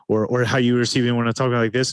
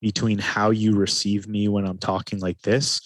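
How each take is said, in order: First: Quick, hurried, a bit higher; rushed fast talking. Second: Slowed, unhurried delivery; slow calm talking. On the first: Coach contrasting with the calm take, rushed hurried voice. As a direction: rush the words like you're stressed. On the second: Coach showing the difference, slow calm voice. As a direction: talk slowly and evenly to show calm. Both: Shown as a demonstration. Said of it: "think about the difference".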